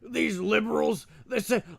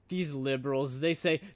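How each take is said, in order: First: It is said in a put-on character accent. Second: It is said in the speaker's natural voice.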